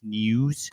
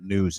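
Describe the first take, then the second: First: It is said in a strained, pushed announcer voice. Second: It is said in a plain, relaxed voice. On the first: The speaker calls it right. "sound like you're really constipated" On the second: The speaker calls it wrong. "it's not news"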